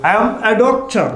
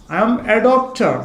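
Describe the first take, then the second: First: Said in the usual way. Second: "I am a doctor" drawn out word by word, very slow; dictating at a crawl; slow dictation. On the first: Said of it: "teacher reads the example, then repeats it". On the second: Shown as a demonstration. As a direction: spell it out slowly for the class to copy. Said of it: "teacher repeats it slowly for dictation".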